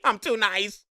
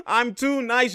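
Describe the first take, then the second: First: Said in the usual way. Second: Drawn out and slow, laughing at his own skill; slow, smug laughing brag; slow gloating laugh. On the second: Real, not acted. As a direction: savor it slowly through a chuckle.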